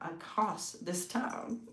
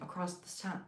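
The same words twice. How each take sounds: First: It is said in a grand, theatrical way. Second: It is said in a plain, ordinary way.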